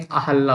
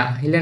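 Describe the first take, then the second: First: "अहल्ला" with a short a and a doubled l, a-hal-laa; correct form. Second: "अहिल्या" with the long i, a-hi-lyaa; wrong form. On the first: Teacher stating the correct name for the students. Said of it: "अहल्ला होता है". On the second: Teacher rejecting the students' spelling aloud. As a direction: say "अहिल्या" with a clear hi and a y glide. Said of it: "अहिल्या नहीं". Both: Shown as a demonstration.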